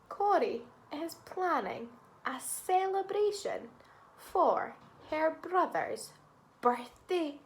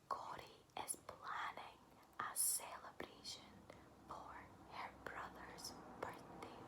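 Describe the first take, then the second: First: It is spoken in a normal voice. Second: It is whispered.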